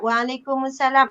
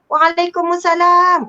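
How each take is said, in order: First: It is said in a weak tone. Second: It is said in a cheerful tone.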